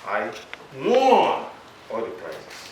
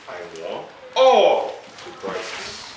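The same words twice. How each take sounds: First: The stress is on "won". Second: The stress is on "all".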